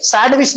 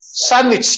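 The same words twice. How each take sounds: First: "सैंडविच" wrongly as SAND-wich; D sounded. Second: "सैंडविच" as SAN-wich, no D; silent D. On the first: Teacher showing what not to say, "सैंडविच" with D sounded. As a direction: pronounce the D in "सैंडविच". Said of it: "सैंडविच नहीं बोलना". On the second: Teacher modelling for the class, "सैंडविच" with silent D. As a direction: drop the D from "सैंडविच". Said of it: "डी नहीं पढ़ना". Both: Shown as a demonstration.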